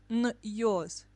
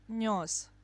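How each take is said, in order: First: A separate y sound follows the consonant. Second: The y sound is blended into the consonant. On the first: The speaker calls it wrong. "not нёс" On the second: The speaker calls it right. "You pronounce it all together"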